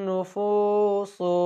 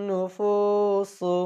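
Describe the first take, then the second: Both takes have the same delivery.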